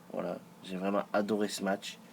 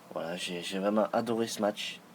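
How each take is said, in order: The two takes are said the same way.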